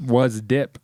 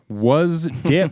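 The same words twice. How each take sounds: First: "was" stressed, plain level. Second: "Dip" stressed, rising high. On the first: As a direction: lean on "was", not "Dip". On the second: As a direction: lift "Dip" as a question. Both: Shown as a demonstration.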